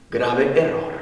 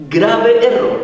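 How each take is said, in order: First: Low and soft, sober warning; grave, hushed verdict. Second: "Grave error" raised and forceful; emphatic verdict. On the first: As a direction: drop the voice for a sober judgement. Same verdict said softly, then raised. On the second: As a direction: hit "Grave error" hard, voice lifted. Same verdict repeated with raised voice. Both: Real, not acted.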